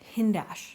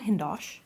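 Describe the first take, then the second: First: The second syllable has an 'ah' vowel. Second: The second syllable has an 'oh' vowel. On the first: The speaker calls it right. "Hindash, not Hindosh" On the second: The speaker calls it wrong. "not Hindosh"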